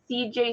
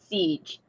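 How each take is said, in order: First: Two separate letter names are spoken. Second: The letters are merged into one syllable. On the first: "Matt calls me C J" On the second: "it's C J smashed together, so it's Siege"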